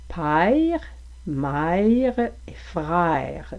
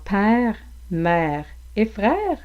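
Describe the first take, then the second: First: The vowels glide from a toward i. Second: The vowels are single plain vowels. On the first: "vous pourriez entendre" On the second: "comme dans"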